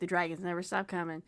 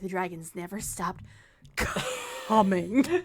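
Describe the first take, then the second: First: The line is said plainly and casually. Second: The line is said in an overly dramatic way.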